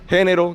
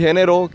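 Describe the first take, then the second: First: The stress is on the first syllable. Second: The stress is on the second syllable. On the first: A category of masculine or feminine. "que es femenino o masculino" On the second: The act of creating something. "que es crear algo"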